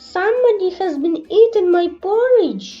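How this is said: The voice is small, little and wee. "in his little small wee voice"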